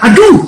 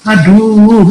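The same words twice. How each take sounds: First: It sounds like a cry of pain. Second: It does not sound like pain.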